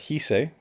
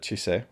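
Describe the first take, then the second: First: The name begins with an h sound. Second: The name begins with a ch sound. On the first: "so there's not a ch at the beginning" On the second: "that's how, how I would naturally pronounce it"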